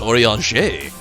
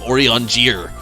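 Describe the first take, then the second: First: The name is pronounced in a French way. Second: The name is pronounced in an English way. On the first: The speaker calls it right. "it's French" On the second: The speaker calls it wrong. "You're saying it wrong"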